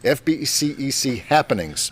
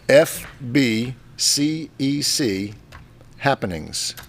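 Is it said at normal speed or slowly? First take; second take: normal speed; slowly. First: It is said at normal speed. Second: It is said slowly.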